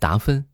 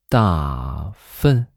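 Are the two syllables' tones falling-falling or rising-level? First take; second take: rising-level; falling-falling. First: The first syllable rises and the second is level. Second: Both syllables have a falling fourth tone. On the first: It is just a shortened painter's name. The speaker calls it wrong. "这个音调不是很对" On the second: It sounds like the word for excrement. The speaker calls it right. "第一声是四声，第二声也是四声"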